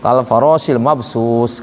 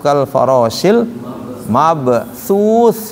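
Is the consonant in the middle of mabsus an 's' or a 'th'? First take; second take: s; th. First: The middle consonant of mabsus is a hissing 's'. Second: The middle consonant of mabsus is a soft 'th'. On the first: The speaker calls it wrong. "berarti pakai sin" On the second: The speaker calls it right. "yang betul pakai sa"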